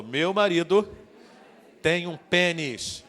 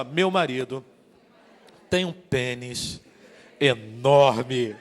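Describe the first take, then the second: First: Said in the usual way. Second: Slow build, then a loud laughing "enorme"; boastful emphasis. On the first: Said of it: "Diga de novo". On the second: Shown as a demonstration. Preacher demonstrating for wives, slow and boastful on "enorme". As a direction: stretch it out slowly and land "enorme" big and laughing. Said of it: "Agora diga assim, ó".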